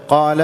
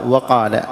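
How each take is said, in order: First: Said in the usual way. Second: «وقال» with an extra wa at the front; added waw. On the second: Shown as a demonstration. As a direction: say «وقال» as wa-qaala. («وقال» بزيادة واو في أوله) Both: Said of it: "زيادة حرف".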